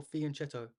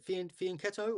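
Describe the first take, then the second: First: "fianchetto" with ch as in chess; "fianchetto" said with a ch sound; soft "ch" pronunciation. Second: "fianchetto" with the ch said as k; "fianchetto" said with a k sound; hard "k" pronunciation. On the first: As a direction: say "fianchetto" as fee-an-CHET-o. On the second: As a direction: say "fianchetto" as fee-an-KET-o. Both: Shown as a demonstration. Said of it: "how do you guys pronounce it".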